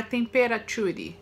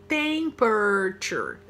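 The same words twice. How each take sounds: First: Temperature said as TEM-pe-ra-ture, every syllable sounded; wrong pronunciation. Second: Temperature said as TEM-pruh-chur, slow; slow correct pronunciation. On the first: Teacher shows students the mistake to avoid, temperature in full syllables. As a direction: temperature read the way it is spelled. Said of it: "não é temperature". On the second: Teacher models the right form for students, Temperature as slow TEM-pruh-chur. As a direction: Temperature in three syllables, drawn out. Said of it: "Essa é a pronúncia". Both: Shown as a demonstration.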